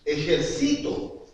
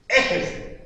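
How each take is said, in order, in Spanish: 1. La acentuación está en la penúltima sílaba. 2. La acentuación está en la primera sílaba. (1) "aquí en la penúltima" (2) "En la primera E, nada, porque ahí no existe esa palabra"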